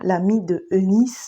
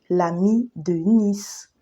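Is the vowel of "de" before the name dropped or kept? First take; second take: kept; dropped. First: The vowel of de is kept before Eunice. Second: The vowel of de is dropped before Eunice. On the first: The speaker calls it wrong. "On ne dit pas" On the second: The speaker calls it right. "mais on dit"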